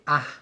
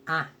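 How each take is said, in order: First: The vowel is wide open with no nasal sound. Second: The vowel is narrower with a nasal sound. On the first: The speaker calls it wrong. "Esse A não pode ser A" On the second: The speaker calls it right. "Perceba que o meu nariz está presente nesse A"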